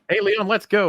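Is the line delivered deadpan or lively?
lively. It is said lively, with expressive feeling.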